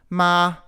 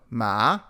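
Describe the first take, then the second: First: The pitch stays high and level. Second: The pitch rises from mid to high. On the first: "the high tone" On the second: "the rising tone"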